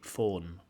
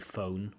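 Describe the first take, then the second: First: The vowel stays a single pure sound. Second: The vowel glides as a diphthong. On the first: "strong Welsh accents often don't have diphthongs" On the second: "we don't say phone"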